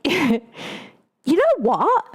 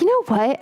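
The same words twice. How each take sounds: First: High, drawn-out mock Australian accent; playful, slow Australian twang. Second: Said in the usual way. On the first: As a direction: stretch it out in an exaggerated Australian accent. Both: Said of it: "I'm not gonna do his accent".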